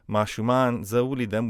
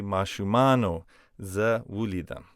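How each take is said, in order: First: "Mashuman zawulidam" with no o after Mashuman; wrong uninflected form. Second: "Mashumano zawulidam" with an o closing Mashumano; correct inflected form. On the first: Teacher showing what we can't say, uninflected "Mashuman zawulidam". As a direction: end "Mashuman" on the n, straight into "zawulidam". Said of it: "we can't say". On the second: Teacher showing what we have to say, inflected "Mashumano zawulidam". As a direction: add a clear "oh" to "Mashumano" before "zawulidam". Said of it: "we have to say". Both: Shown as a demonstration.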